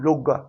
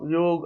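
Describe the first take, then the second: First: The word ends with an added a vowel. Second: The word ends on the consonant g. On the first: The speaker calls it wrong. "उसको अंग्रेजी में योगा, योगा योगा से कोई अर्थ नहीं निकल रहा है" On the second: The speaker calls it right. "योग शब्द के उच्चारण से जुड़ाव महसूस होता है"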